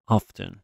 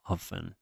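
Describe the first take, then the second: First: "Often" with an audible t; pronounced t. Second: "often" without a t sound; silent-t pronunciation. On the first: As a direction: say "Often" as OFF-ten. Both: Shown as a demonstration. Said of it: "هر دو تلفظ تلفظهای درستی به حساب میان".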